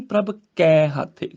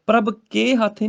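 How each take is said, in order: First: "ਕੈ" with a long open ai. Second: "ਕੇ" with a close e. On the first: Teacher corrects it, "ਕੈ" with ai. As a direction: widen the vowel of "ਕੈ" to kai. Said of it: "ਕੱਕੇ ਨੂੰ ਦਲਾਵਾਂ ਲੱਗੀਆਂ ਨੇ". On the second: Teacher shows the mistake, "ਕੇ" with e. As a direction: say "ਕੇ" as ke before "ਹਾਥੇ". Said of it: "ਪ੍ਰਭ ਕੇ ਹਾਥੇ ਨਹੀਂ". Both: Shown as a demonstration.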